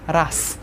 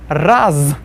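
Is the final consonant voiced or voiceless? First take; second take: voiceless; voiced. First: The final consonant is voiceless. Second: The final consonant is voiced.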